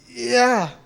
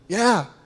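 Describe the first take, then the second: First: It sounds reluctant, like a polite refusal. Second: It sounds willing and agreeing. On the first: The answer is no. "That means no" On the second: The answer is yes. "That, that means yes"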